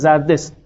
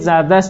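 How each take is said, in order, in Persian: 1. با لهجه فارسی معیار گفته شده است. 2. با لهجه اصفهانی گفته شده است. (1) "نه زردست" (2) "اصفهانی هم باید بگید زردست"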